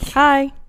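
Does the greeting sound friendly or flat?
friendly. It is said in a friendly, upbeat way.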